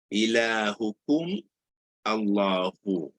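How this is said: There is a break between the two words. The speaker calls it wrong. "Jadi dia terputus"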